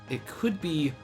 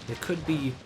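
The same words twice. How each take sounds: No difference in how they are said.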